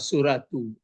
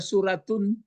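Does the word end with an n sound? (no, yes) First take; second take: no; yes. First: The word ends in a plain vowel, no n. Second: The word ends with an added n sound. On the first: The speaker calls it right. "itu maka dibaca uh, suratu" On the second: The speaker calls it wrong. "nggak boleh juga dibaca suratun"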